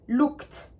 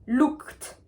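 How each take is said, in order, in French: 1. Le mot se termine par un son T bref. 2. Le mot se termine par un son T bref.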